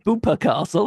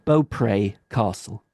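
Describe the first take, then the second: First: The name sounds like 'Bupa', two syllables. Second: The name sounds like 'Beaupre', French-style. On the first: It sounds like a private health company. "it just makes me think of the private health" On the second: It follows the old Norman name. "every single YouTuber ... calls it Beaupre Castle"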